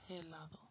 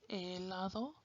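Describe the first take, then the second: First: The h at the start is sounded. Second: The h at the start is silent. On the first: The speaker calls it wrong. "you don't say helado" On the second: The speaker calls it right. "But H is silent"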